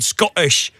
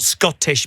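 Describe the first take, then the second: First: The T sounds are dropped from the word. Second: The T sounds are clearly pronounced in the word. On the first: "you dropped your T's. You said Scottish" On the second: "not Scottish"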